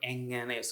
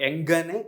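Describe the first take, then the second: First: The middle consonant is a soft nasal ng. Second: The middle consonant is a hard g sound. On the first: The speaker calls it right. "the nasal sound ... softer ... nga sound" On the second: The speaker calls it wrong. "it is not ... not the ga sound"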